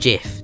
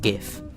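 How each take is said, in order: First: It begins with a soft J sound. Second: It begins with a hard G sound. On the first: The speaker calls it wrong. "It's not GIF. Don't pronounce it GIF" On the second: The speaker calls it right. "It's pronounced GIF"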